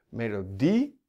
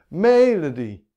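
First: The stress is on the last syllable. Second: The stress is on the first syllable. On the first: The speaker calls it right. "overdrijf het maar flink. Daar zit de klemtoon" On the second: The speaker calls it wrong. "Als de klemtoon op de eerste zou zitten"

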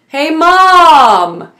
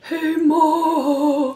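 First: It is a full, clear calling voice. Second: It is a weak, breathy voice.

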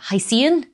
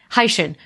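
First: The word ends with a 'see-an' sound. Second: The word ends with a 'shin' sound. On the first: "But like as it's written in English, you would probably pronounce it as like" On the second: "I'm pronouncing it like high from hydrogen and shin from ocean"

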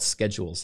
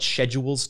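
First: The word is said with a non-British pronunciation. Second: The word is said with a British pronunciation. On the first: The speaker calls it right. "like normal people" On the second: The speaker calls it wrong. "I hate when they call it schedules. I don't know if that's just like a British thing"

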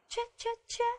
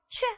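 First: The voice rises at the end. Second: The voice falls firmly at the end. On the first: It is a question. "是问号" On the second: It is an exclamation. "因为第一个是感叹号"

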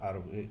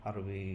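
No difference in how they are said.

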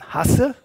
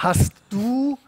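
First: The words merge into one short contracted word. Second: Both words are said fully and separately. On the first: This is the casual regional everyday speech. "sage ich dann hasse" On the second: This is the standard language. "statt hast du"

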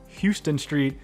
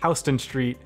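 First: Houston sounds like the Texas city's name. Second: Houston sounds unlike the Texas city's name. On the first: The speaker calls it wrong. "It is not Houston Street" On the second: The speaker calls it right. "it is Houston Street"

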